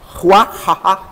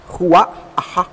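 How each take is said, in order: First: Ruahaha with breathy Hebrew h sounds; Hebrew pronunciation. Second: Ruahaha again, slow and breathed out, stressing the end; slow breathy repeat. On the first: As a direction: say Ruahaha the Hebrew way, stress at the end. (Ruahaha pronunciado à hebraica) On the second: (Ruahaha repetido devagar, soprado) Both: Shown as a demonstration. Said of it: "é assim mesmo".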